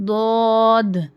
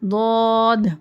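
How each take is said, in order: Both takes have the same delivery.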